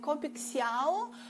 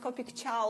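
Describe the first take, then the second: First: The second word starts without a 'ch' sound. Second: The second word starts with a 'ch' sound. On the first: The speaker calls it wrong. "some people call it like Copic Xiao" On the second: The speaker calls it right. "it's correctly to pronounce it Copic Ciao, like in Italian manner"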